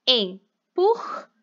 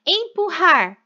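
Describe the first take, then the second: First: "empurrar" split slowly into syllables, em-pur-rar; syllabified slowly. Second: Said in the usual way. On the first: Shown as a demonstration. Teacher to pupils, separating syllables: slow "empurrar". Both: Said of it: "Também separei os R's".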